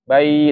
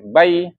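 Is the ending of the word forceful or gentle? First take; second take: gentle; forceful. First: The ending is released softly and gently. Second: The ending is pushed out forcefully and abruptly. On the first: The speaker calls it right. "lembut saja pengeluarannya" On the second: The speaker calls it wrong. "jangan sampai dihentak"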